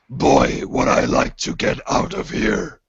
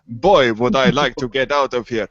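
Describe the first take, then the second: First: The voice is rough and gravelly. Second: The voice is smooth, not gravelly. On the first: The speaker calls it right. "I should have done the, the gravelly voice" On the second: The speaker calls it wrong. "I have no idea why I'm doing this voice"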